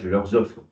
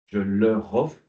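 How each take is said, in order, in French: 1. Un son z relie 'leur' à 'offre'. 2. 'Leur' enchaîne sur 'offre' sans son z.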